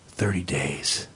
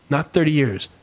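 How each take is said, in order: First: Deep, slow gravelly doctor voice; grim doctor voice. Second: Said in the usual way. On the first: Shown as a demonstration. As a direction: drop into a low doctor's rasp. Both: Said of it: "not thirty years, thirty days".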